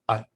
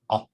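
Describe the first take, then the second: First: The vowel starts at the front of the mouth. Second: The vowel starts deep in the throat. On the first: "Aleph is in the front of the mouth" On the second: "Ayin is in the throat"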